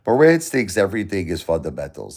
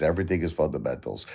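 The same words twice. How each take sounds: First: Said in the usual way. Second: Quick, softer mock parroting of a rival; scornful quick aside mimicking Marantz. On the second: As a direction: toss off his line like a dismissive imitation. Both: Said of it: "That's what he thinks".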